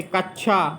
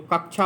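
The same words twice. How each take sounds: First: कक्षा with a doubled chh, no k before it; mispronounced ksha. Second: Said in the usual way. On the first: Shown as a demonstration. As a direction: say कक्षा as "kach-chha". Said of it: "कक्षा नहीं होता है". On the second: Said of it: "तो कक्षा होता है".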